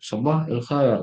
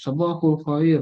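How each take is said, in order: First: The phrase is chopped into separate parts with il. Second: The phrase is said smoothly joined with -ul. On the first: This is how Arabs say it. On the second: This is how learners usually say it. "kalau kita yang khusus sabahul khair gitu"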